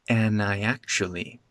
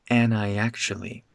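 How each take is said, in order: No difference in how they are said.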